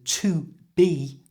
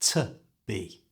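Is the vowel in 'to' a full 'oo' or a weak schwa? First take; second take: full oo; schwa. First: The word 'to' has a full 'oo' vowel. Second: The word 'to' has a weak schwa vowel. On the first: "change the oo in to to a schwa sound" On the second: "becomes to be"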